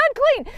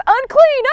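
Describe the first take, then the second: First: Unclean dropping away softly; leper's softer second call; fading repeat. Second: High called Unclean; leper's first call; calling out loud. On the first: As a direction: let the second unclean fade out. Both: Retold or imitated. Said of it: "They're supposed to announce".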